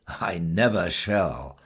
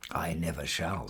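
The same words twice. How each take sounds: First: Slow, drawn-out NEVER with more weight; firm, slow refusal stressing "never"; emphatic refusal. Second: Softer, understated refusal; quietly dismissive, without any push. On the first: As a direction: lean on "never" and stretch it out. Woman repeats refusal more emphatically. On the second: Woman's first refusal of cat. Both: A narrator's reading.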